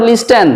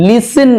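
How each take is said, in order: First: "listen" with the t sounded; wrong pronunciation. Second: "listen" with the t silent; correct pronunciation. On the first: Teacher showing the mistake to avoid, "listen" with sounded t. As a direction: say "listen" wrongly as lis-ten. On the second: Teacher modelling the right word, "listen" with silent t. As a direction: say "listen" as lis-en, no t. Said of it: "not listen". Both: Shown as a demonstration.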